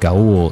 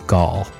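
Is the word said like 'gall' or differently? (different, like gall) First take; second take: different; like gall. First: The word does not sound like 'gall'. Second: The word sounds like 'gall'. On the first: The speaker calls it wrong. "I said Gaul" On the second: The speaker calls it right. "it's pronounced like Gaul, like G-A-L-L"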